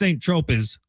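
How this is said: The name is said with an English pronunciation. "in English it's Saint Tropez"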